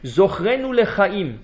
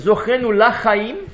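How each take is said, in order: First: The second word starts with a short 'le' sound. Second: The second word starts with an open 'la' sound. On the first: Remember us for life. The speaker calls it right. "rappelle-nous pour la vie" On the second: Remember us, no to life. The speaker calls it wrong. "Au lieu lach, le, les avec Sheva, je dis la"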